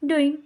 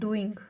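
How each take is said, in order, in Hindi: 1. आखिरी g की आवाज़ छोड़ दी जाती है। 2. आखिरी g की आवाज़ साफ़ बोली जाती है। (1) "जो लास्ट वाला जी होता है ना, वो उसकी प्रोनाउंसिएशन ही नहीं होती" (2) "हम यहाँ इंडिया में हम बोलते हैं डूइंग, ... लास्ट में उसकी साउंड आती है"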